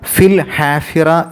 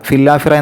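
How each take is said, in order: First: The h is pronounced clearly between the words. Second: The h is dropped and the words run together. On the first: The speaker calls it right. "വ്യക്തമായിട്ട്" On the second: The speaker calls it wrong. "വേഗതയിൽ പാരായണം ചെയ്യുമ്പോൾ ... എന്നല്ല"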